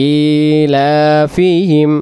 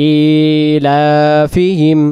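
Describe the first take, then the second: The two takes are said the same way.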